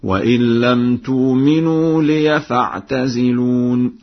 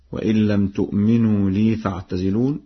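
First: لي said as liya, slow recitation; ya with fatha in lī. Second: Said in the usual way. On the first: Shown as a demonstration. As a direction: chant it, opening لي into liya. (لي بفتح الياء، ترتيل بطيء) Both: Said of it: "بفتح الياء في لفظ لي هكذا".

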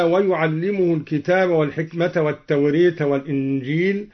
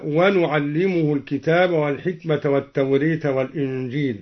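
First: Said in the usual way. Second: ونعلمه recited with nu in place of yu; nun of majesty. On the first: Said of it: "قوله تعالى". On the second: Shown as a demonstration. Reciter demonstrates Duri's nun of majesty on ونعلمه. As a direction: start ونعلمه clearly with nun. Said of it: "قرأ الدوري بنون العظمة هكذا".

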